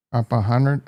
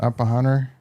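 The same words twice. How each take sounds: First: Hundred with a clear d, "hun-dred"; careful hundred. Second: Hundred as "hunner", d dropped; Midwestern hundred. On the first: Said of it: "that's how you sound?". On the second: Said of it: "My Midwestern accent". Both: Shown as a demonstration.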